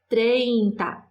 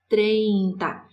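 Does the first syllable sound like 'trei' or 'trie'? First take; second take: trei; trei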